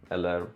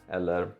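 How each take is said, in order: The two takes are said the same way.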